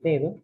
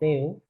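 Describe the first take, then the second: First: The middle d sound is pronounced. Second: The middle d sound is dropped. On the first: "en vez de decir" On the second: "Elidiendo la, la dental en posición intervocálica"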